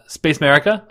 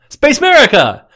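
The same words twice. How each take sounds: First: It is said flatly, without energy. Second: It is said loudly, with excitement.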